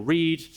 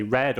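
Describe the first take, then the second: First: Present-tense "read", long ee as in "reed". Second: Past-tense "read", short e as in "red". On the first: Showing how context changes pronunciation, "read" said as "reed". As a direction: say "read" to rhyme with need. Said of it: "it can pronounce words based on the context". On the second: Showing how context changes pronunciation, "read" said as "red". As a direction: say "read" to rhyme with bed. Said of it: "so it can say read or read". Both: Shown as a demonstration.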